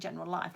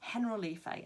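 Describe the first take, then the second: First: It sounds like the English words general life. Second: It is said as one word, Spanish style. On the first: The speaker calls it wrong. "it looks like General Life, like sounds like a life company" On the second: The speaker calls it right. "actually it's Generalife"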